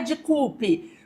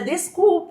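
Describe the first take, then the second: First: The s sound before the c is dropped. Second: The s sound before the c is pronounced. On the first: The speaker calls it wrong. "não é de culpe" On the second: The speaker calls it right. "mas é desculpe"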